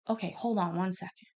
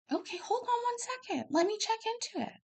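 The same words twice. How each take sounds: First: Said in the usual way. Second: Soothing doctor. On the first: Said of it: "own reply, contrasted with the doctor's". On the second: Retold or imitated. Doctor calms the upset mother.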